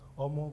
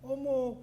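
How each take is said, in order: First: It is said with milder emotion. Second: It is said with stronger emotion.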